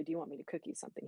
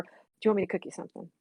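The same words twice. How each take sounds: First: Whispered fast, barely voiced; hushed morning offer. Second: Said in the usual way. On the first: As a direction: breathe it out quick and soft, not to wake anyone grumpy. Quoting morning offer to husband.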